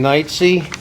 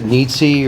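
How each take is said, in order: First: The first vowel sounds like 'night'. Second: The first vowel sounds like 'neat'. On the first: The speaker calls it right. "My name's [name]" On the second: The speaker calls it wrong. "Some people pronounce it Neatsy"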